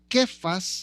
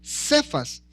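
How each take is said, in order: First: It is said as the Aramaic form of the name. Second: It is said as the Spanish form of the name. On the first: "su pronunciación del arameo sería aproximadamente como Kefas" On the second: "más traducido al español"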